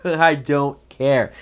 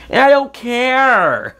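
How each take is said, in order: First: Chuckling, slow and dismissive; laughing repeat. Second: Much higher, slow, exasperated; emphatic dismissal. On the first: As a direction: laugh it off and shrug. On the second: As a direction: stretch out the not caring. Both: Real, not acted.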